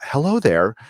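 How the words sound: It is said in an exaggerated put-on voice.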